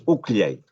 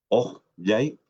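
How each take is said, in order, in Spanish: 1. Una vocal u cerrada con un sonido k. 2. Una vocal o abierta con una consonante fricativa. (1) "no es uclyay, no es con K" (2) "esta ja hace que abra la vocal"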